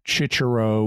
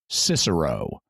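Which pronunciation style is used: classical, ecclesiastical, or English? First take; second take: ecclesiastical; English. First: The name is said in church Latin style. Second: The name is said in traditional English style. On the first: "There's an ecclesiastical pronunciation" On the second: "or more familiarly"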